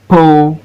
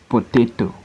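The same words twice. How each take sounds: First: PO, TA, TO as separate beats; Potato in three long beats with pauses; syllable by syllable. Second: Said in the usual way. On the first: Shown as a demonstration. Teacher showing three syllable words, Potato broken as PO-TA-TO. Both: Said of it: "look at three syllable word".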